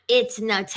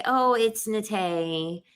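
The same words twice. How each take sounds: First: "Nate" as nah-TAY with mock attitude; snippy correction. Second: Slow, easy "Nate" as nuh-TAY; polite correction. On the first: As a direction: correct the name with attitude, imitating her. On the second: Retold or imitated. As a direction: gently correct the name, taking your time. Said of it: "all she had to do was say".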